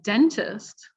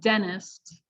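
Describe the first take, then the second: First: The T after N is clearly pronounced. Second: The T after N is dropped. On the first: The speaker calls it right. "Instead of saying dentist" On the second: The speaker calls it wrong. "we'll say dentist"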